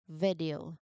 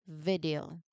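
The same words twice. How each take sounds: The two takes are said the same way.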